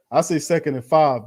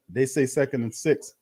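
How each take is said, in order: First: "five" hit firmly, falling and louder, his own call; stress on five. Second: "say" lifted with a rising tune, their official call; stress on say. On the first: Fan commentator to chat, insisting on his spot with "five". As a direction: punch "five" as the correct number. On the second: Fan commentator to chat, doubting the official spot with "They say". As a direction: give "They say" a light questioning lift. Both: Real, not acted.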